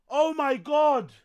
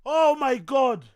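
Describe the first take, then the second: No difference in how they are said.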